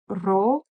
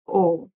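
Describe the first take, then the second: First: The particle is said as 'ro' with r. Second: The particle is said as a bare 'o'. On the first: This is the everyday spoken form. "in colloquial everyday um, per spoken Persian, it's just ro" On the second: This is a further reduced spoken form. "it's further reduced to just o"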